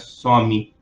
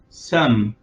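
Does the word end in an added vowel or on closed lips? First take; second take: added vowel; closed lips. First: The word ends with an added vowel after m. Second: The word ends on an m with closed lips. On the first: The speaker calls it wrong. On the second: The speaker calls it right.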